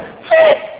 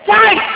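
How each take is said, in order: First: The vowel is short, as in 'bit'. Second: The vowel is a long glide, as in 'bite'. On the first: The speaker calls it wrong. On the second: The speaker calls it right.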